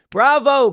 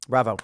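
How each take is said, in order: First: A high, loud cheer of Bravo. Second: Said in the usual way. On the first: Real, not acted. Host cheering the Florida governor's immigration bill, loud and high bravo. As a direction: shout Bravo like applauding from the stands.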